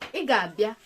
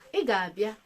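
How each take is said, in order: First: It is said with a level mid tone. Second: The same.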